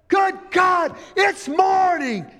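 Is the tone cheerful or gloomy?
cheerful. It is said in a cheerful, excited tone.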